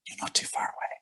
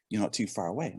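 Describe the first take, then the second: First: Soft whispered aside, much softer. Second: Repeated softly, voiced but hushed; quiet repeat. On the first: Retold or imitated. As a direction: whisper it like a secret tip to a stranger. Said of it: "he whispers to me". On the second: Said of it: "He said".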